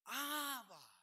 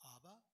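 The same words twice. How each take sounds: First: The word is cried out with desperate urgency. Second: The word is said calmly, without crying out. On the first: The speaker calls it right. "You say, Abba. You're calling out" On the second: The speaker calls it wrong. "You don't say"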